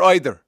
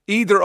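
First: "either" opening like the word eye; long I starting "either"; either as EYE-ther. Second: "Either" opening on a long EE; either as EE-ther. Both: Shown as a demonstration. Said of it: "which is that".

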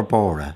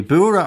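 First: "Bora" with an aw vowel, like BAW-ra; second pronunciation option. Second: "Bura" with a long oo, like BOO-ra; first pronunciation option. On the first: Host offering Ita the other pronunciation, BAW-ra. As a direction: say "Bora" to rhyme with Laura. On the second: Host checking the place name with Ita, BOO-ra pronunciation. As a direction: say "Bura" with an oo vowel. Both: Shown as a demonstration. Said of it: "am I pronouncing it properly?".

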